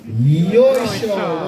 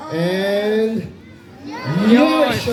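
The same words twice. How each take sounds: First: Chant call. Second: High, loud chant; repeating louder and sillier. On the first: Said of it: "say together in unison with me". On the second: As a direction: belt it out louder. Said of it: "One more time, louder". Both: Shown as a demonstration.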